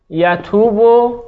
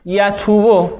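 First: یتوبو stretched out, each syllable slow and distinct; teacher dictating یتوبو very slowly; slow dictation. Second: Said in the usual way. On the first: Shown as a demonstration. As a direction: draw یتوبو out slowly so the class can write it. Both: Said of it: "آها،".

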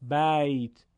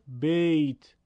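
First: «بیت» as Arabic "bayt", with open a; Arabic pronunciation. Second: «بیت» as Persian "beyt", with e; Persian accent. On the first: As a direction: open «بیت» on a clear a, gliding into y. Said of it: "باید بگیم". («بیت» با فتحهٔ عربی، بَیت) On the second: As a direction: close the vowel of «بیت» to a Persian ey. («بیت» با لهجهٔ فارسی، بِیت) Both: Shown as a demonstration.

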